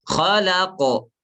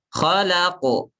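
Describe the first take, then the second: No difference in how they are said.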